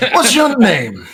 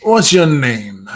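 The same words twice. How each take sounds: First: High-pitched demand for a name; demanding question. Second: Slow, drawn-out question; deliberate repeated demand. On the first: Captor first asking the prisoner's name, high and insistent. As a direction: ask it pitched well up. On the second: Captor asking the mumbling prisoner's name, slow and deliberate. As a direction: spell out the demand slowly. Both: Acted.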